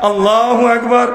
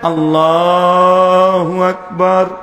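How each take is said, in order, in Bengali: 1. এটি খুব দ্রুত এবং তাড়াহুড়ো করে বলা হয়েছে। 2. এটি ধীরে এবং টেনে বলা হয়েছে। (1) "যত স্পিড আছে চার পাঁচ নাম্বার গিয়ারে" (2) "চমৎকার করে পড়ায়"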